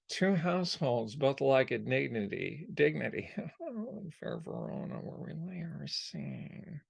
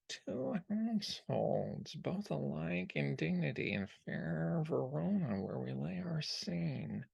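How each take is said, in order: First: The voice moves from loud into a soft undertone. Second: The put-on voice stays at one steady level. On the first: "doing his out loud voice and then moving into the Soto" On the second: "Now, obviously, he's not doing that the whole time"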